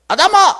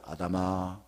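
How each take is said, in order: First: It sounds a bit angry. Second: It sounds loving and smiling.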